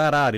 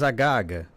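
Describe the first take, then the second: First: The word is said with R sounds. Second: The R sounds are replaced by G sounds. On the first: "aqui a palavra arara" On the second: "ele diz agaga"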